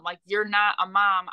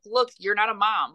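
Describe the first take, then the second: First: "not" hit hard in "you're not a mom"; stress on not. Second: Said in the usual way. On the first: Retold or imitated. Daughter repeats it to mom, punching "not".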